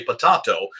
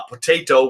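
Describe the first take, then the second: First: Potato with an AH sound, puh-TAH-toh; British pronunciation. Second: Potato with an AY sound, puh-TAY-toh; American pronunciation. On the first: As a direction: pronounce the middle of potato like "tah". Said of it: "others would say potato". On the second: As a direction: pronounce the middle of potato like "tay". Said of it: "same word would be said". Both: Shown as a demonstration.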